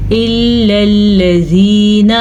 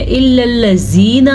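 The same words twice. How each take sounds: First: Slowly chanted الذین with a soft "th" as in "this"; soft dhal. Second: الذین said with a hard buzzing z; wrong za sound. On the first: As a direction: recite الذین with tongue-tip dhal. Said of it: "زال کو نرمی سے پڑھیں گے". (الذین کا ذال نرمی سے) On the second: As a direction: turn the dhal of الذین into z. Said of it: "تو یہ وہ زا کی آواز نکلتی ہے". (الذین میں ذال کی جگہ زا) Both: Shown as a demonstration.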